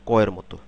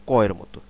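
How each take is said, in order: The two takes are said the same way.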